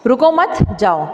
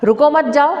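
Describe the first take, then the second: First: "रुको, मत" joined, pause, falling "जाओ"; 'मत' के बाद विराम. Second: "रुको, मत जाओ" run together, rising at the end; no break anywhere in "रुको, मत जाओ"; बिना विराम. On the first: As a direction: break after "मत" before "जाओ". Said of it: "इसका क्या मीनिंग होगा". ("मत" पर ठहरकर "जाओ" अलग बोलें) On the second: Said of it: "अगर मैंने ऐसा बोला". ("रुको, मत जाओ" एक साँस में, बिना रुके) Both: Shown as a demonstration.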